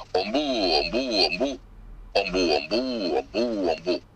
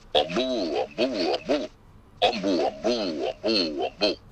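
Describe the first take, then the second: The two takes are said the same way.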